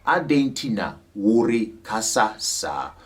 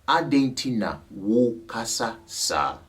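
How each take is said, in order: First: The 're' syllable after 'wu' is pronounced. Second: The 're' syllable after 'wu' is left out. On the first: "that can be said as" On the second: "usually when you speak it, you don't put a re"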